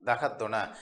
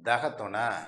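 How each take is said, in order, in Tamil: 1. இந்த சொல்லை முழுசா சொல்றாங்க. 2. இந்த சொல்லை முழுசா சொல்றாங்க.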